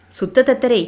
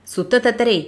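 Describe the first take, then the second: First: Commander calling the name with a cruel smile; a smiling, menacing call of தத்தரே; through a smile. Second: Stern warning call of தத்தரே. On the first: Lightly smiling threat from the commander. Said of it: "அழைத்தான் படைத்தலைவன் புன்முறுவலின் ஊடே". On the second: Commander warning his captive guru in a stern voice. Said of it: "எச்சரிக்கை குரல் மீண்டும் ஒலித்தது". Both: A narrator's reading.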